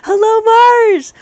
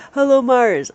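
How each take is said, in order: First: High, loud, slow call; drawn-out shouted greeting. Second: Said in the usual way. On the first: Real, not acted. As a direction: belt out a long hello. Calling out a greeting on stream.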